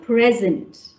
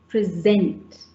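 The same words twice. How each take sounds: First: The stress is on the first syllable. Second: The stress is on the second syllable. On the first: "it's in the first syllable" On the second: "So it's on the second syllable"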